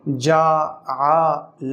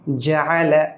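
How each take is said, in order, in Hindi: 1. स्वर खींचकर लंबा किया जाता है। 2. स्वर छोटा रखा जाता है, खींचा नहीं जाता। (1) "अगर हम इसे खींचेंगे जअल, ये गलत हो जाएगा" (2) "तो हम इसे पढ़ेंगे जअल, खींचेंगे नहीं"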